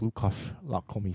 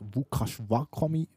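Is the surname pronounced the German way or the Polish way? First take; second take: German; Polish. First: The surname is said with a German pronunciation. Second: The surname is said with a Polish pronunciation. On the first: "dass wir aber wirklich Lukas Lakomi sagen" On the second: "dass wir auf Polnisch eigentlich Lukas Wakomi aussprechen"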